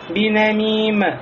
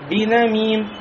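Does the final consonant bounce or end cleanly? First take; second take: bouncing; clean. First: The final m wobbles with an extra echo. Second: The final m ends cleanly with no echo. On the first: The speaker calls it wrong. "Нельзя сказать бинамим, бинамим, как некоторые делают" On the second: The speaker calls it right. "четко произнесли, без колебания"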